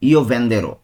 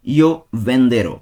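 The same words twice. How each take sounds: First: Said in the usual way. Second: Slow, drawn-out Io venderò, every syllable separate; slow demonstration. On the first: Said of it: "second take of the demo". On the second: Shown as a demonstration. Teacher showing students the future tense, very slow. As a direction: stretch Io venderò out slowly so learners catch it. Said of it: "first take of the demo".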